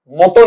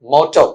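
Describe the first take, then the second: First: मोटो with plain "o" vowels, "mo-to"; wrong pronunciation. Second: मोटो with "au" sounds, roughly "mau-tau"; correct pronunciation. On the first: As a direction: say मोटो as the error to avoid, "moh-toh". (मोटो का गलत उच्चारण, सीधे "ओ" से) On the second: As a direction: model मोटो with open diphthongs as the correction. (मोटो का सही उच्चारण, "औ" ध्वनि से) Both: Shown as a demonstration. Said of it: "मोटो नहीं, मोटो".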